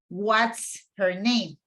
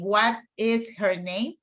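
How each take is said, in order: First: The word is is contracted to 's. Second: The word is is said in full. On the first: "I can say" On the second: "instead of saying"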